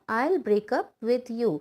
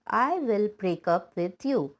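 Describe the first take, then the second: First: "I will" is shortened to one syllable, "I'll". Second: "I will" is said as two full words.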